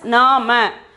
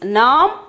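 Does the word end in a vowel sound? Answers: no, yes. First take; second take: yes; no. First: A vowel is sounded after the final m. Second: The word ends on the m sound. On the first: "spelling as Nama" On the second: "The pronunciation is Nam"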